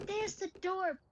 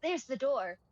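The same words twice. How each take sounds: First: Meme repeat. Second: Said in the usual way. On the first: Retold or imitated. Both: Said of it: "that meme is like".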